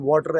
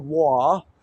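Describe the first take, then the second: First: It is said in a Pakistani English accent. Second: It is said in a British English accent.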